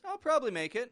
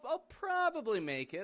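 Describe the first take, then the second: First: Probably is said with two syllables. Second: Probably is said with all three syllables. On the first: The speaker will most likely come. "We're just dropping out that middle syllable. And it sounds more confident" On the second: The speaker is not sure about coming. "Sounds like they're not too sure about themselves"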